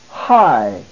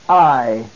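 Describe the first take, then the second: First: The syllable begins with an H sound. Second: The syllable begins directly with the vowel. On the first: "With a rough breathing over the second letter, iota, so it is pronounced high" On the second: "the diphthong alpha iota, I"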